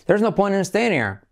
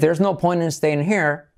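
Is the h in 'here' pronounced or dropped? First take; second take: dropped; pronounced. First: The h at the start of here is dropped. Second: The h at the start of here is breathed.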